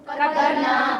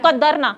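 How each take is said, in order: First: The final vowel is held long. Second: The final vowel is cut short. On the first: We decreed it. The speaker calls it right. "नून फतहा अलिफ सुकून ना को पढ़ेंगे कद्दर ना" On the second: The women decreed it. The speaker calls it wrong. "नून फतहा ना अलिफ निकाल देते तो क्या बनता"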